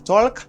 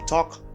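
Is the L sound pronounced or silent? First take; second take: pronounced; silent. First: The L sound is pronounced. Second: The L sound is silent. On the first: The speaker calls it wrong. "Pas dim talk" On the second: The speaker calls it right. "dim talk"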